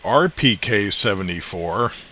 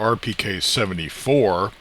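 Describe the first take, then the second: First: Seventy-four is said without special emphasis. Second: Seventy-four is said with strong emphasis.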